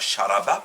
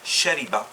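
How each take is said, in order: First: The middle vowel is a. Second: The middle vowel is i. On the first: The speaker calls it wrong. "on ne dit pas sharaba" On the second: The speaker calls it right. "il y a des verbes qui sont en A I A"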